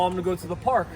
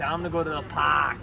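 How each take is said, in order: First: The R sound is clearly pronounced. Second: The R sound is dropped, Boston style. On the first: "instead of saying" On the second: "they say"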